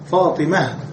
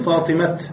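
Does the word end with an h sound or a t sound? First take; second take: h sound; t sound. First: The word ends with a soft h sound. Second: The word ends with a t sound. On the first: The speaker calls it right. "فالأفصح هو الوقوف عليها بالهاء" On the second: The speaker calls it wrong. "ولا تقول فاطمة، لا نقف بالتاء"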